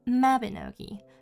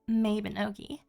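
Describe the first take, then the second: First: The first syllable sounds like 'mah'. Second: The first syllable sounds like 'may'. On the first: This is how most people pronounce it. The speaker calls it right. "what the normal people call Mabinogi" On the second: This is the speaker's own personal pronunciation. The speaker calls it wrong. "a little game I like to call Mabinogi"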